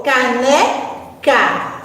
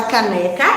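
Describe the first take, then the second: First: "caneca" slowly split into ca, ne, ca; syllable by syllable. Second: Said in the usual way. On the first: Shown as a demonstration. Teacher splitting "caneca" for pupils, slowly syllable by syllable. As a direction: separate each syllable of "caneca". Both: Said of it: "Vamos analisar sílaba a sílaba".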